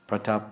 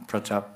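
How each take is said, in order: The two takes are said the same way.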